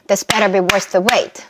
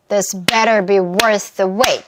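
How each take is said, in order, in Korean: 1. 이 문장은 더 빠른 속도로 말해요. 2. 이 문장은 더 느린 속도로 말해요.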